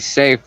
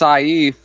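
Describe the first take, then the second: First: The name is said exactly like 'safe'. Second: The name is not said like 'safe'. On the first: This is how the speaker wishes it were pronounced. The speaker calls it right. "It should be safe, like where you keep your money" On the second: This is how the name is really pronounced. The speaker calls it wrong. "It's actually pronounced Saif, like a stupid way"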